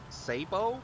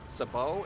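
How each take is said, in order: First: The word is said in an American way. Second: The word is said in a British way.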